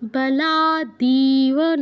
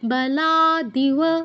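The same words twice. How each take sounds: First: The third syllable has a long vowel. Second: The third syllable has a short vowel. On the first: The speaker calls it wrong. "দিতে দীর্ঘ করে ফেলেছেন ... নয়" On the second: The speaker calls it right. "দীর্ঘ করা যাবে না"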